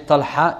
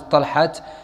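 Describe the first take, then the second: First: The word ends in a vowel, no t. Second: The word ends with a t sound. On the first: The speaker calls it right. "We say Talha, it becomes aha" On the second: The speaker calls it wrong. "we don't pronounce as Talhat"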